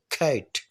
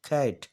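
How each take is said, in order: First: کھیٹ with a breathy aspirated k and a hard aspirated t; English aspirated cat. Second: Said in the usual way. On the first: Shown as a demonstration. Teacher shows students the English way to say cat, aspirated. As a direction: say کھیٹ with a puff of air on both stops. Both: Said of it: "وہ سی کو کھ پڑھتے ہیں اور ٹی کو ٹھ".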